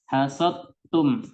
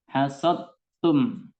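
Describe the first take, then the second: First: The d merges fully into the t sound. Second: The d merges fully into the t sound.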